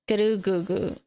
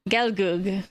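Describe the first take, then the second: First: Extra vowels are added, giving four syllables. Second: It is said without added vowels, two syllables. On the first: "just because of how Japanese pronunciation works" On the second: "even though it's spelled gelgug"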